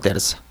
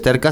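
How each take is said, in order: First: The middle consonant is a soft s sound. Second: The middle consonant is a hard k sound. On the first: The speaker calls it right. "sino terza. / Se dice como es suave" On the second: The speaker calls it wrong. "No es terca"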